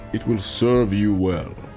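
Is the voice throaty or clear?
clear. It is said without a throaty quality.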